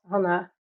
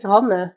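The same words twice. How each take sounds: First: Hannah said as HAN-uh, the English way; the mistaken Hannah ending in uh; wrong name Hannah. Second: Hanne said as HAN-neh, two clear syllables ending in eh; Hanne, not Hannah. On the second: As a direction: correct Dutch name Hanne, ending on a short eh. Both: Shown as a demonstration. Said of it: "not Hannah".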